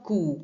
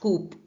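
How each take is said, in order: First: The word ends on a vowel without p. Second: The word ends with a p sound. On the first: The speaker calls it right. "इसमें पी जो है वो silent है" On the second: The speaker calls it wrong. "Not कूप"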